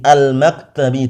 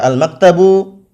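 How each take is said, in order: First: The word ends with an i vowel. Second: The word ends with a u vowel. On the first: The speaker calls it right. "al-maktabi dengan kasrah" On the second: The speaker calls it wrong. "tidak boleh dibaca al-maktabu"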